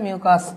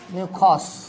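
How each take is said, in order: First: The second syllable has an 'a' vowel. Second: The second syllable has an 'o' vowel. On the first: It is the usual pronunciation in Bangla. "বাংলায় উচ্চারণ করে মিউকাস কোষ" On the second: It follows the spelling of the word. "আমি এমনি বানানটার জন্য বলছি এটা মিউকস"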